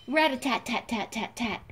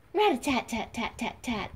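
The two takes are said the same way.

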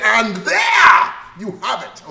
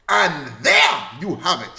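First: "And there you have it" belted slowly and loudly, stretched out, high; said with passion. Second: Said in the usual way. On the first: Shown as a demonstration. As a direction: hit "And there you have it" like you feel it in your soul, slow and loud. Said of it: "Say it with passion".

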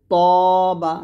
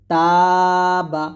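First: তবা with heavy t and long rounded aw; thick to. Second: তাবা with light t and long open aa; thin ta. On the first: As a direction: fatten the t of তবা, stretch the vowel loudly. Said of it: "ত মোটা হবে". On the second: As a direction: keep তাবা thin, stretching the first vowel loudly. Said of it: "তাটা পাতলা হবে". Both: Shown as a demonstration.

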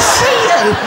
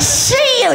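First: High, clipped threat; mock gangster line; menacing robber. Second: Higher, repeated threat; hammed-up robber line; menacing robber. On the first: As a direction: act the hard man saying it. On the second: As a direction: push the hard man further. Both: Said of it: "He went".

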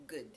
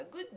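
First: Good ending on a bare d, no vowel after it; Good clipped short on the final d; clean English Good. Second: Good said as gudo, an o added after the d; Good with an extra vowel after the d, the wrong way; romaji Good. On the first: Teacher modelling Good with no added vowel. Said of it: "Dの後に、この何も母音を入れない". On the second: Teacher showing the wrong vowel after d. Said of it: "Goodって言ってしまうと". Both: Shown as a demonstration.

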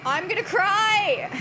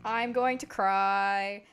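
First: Loud, high, drawn-out mock wail. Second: Low, slow, drawn-out mock despair. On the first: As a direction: wail it slowly as a hammed-up threat of tears. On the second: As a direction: drag it out low, hammed-up.

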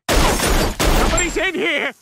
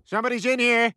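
First: Higher, louder, drawn-out yell; slow loud shout. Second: Said in the usual way. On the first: Acted. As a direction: bellow it slowly through the door.

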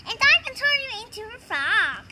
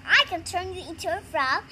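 First: Quick, lively echo of a rival's boast; fast, mildly competitive comeback; one-upping retort. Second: Said in the usual way. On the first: Acted. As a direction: rattle it back as a playful counter-boast. Rival echoes the boast back.

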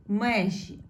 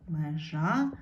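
First: Межі with a stressed Е, then falling; stress on first syllable. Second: Межа rising on a stressed final А; stress on last syllable. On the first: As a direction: hit the Е in межі. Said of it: "стало наголошеною". (наголос на Е у слові межі) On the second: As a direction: lean on the А in межа. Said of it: "треба змінити слово так". (наголос на А в кінці слова межа) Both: Shown as a demonstration.

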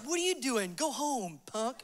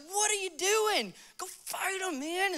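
First: Put-on dismissive older brothers. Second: High, hushed, incredulous mock David; indignant young David. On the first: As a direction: brush him off under your breath. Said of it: "And they're like". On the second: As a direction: question them in a high, disbelieving voice. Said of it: "so David, he goes up to his brothers".

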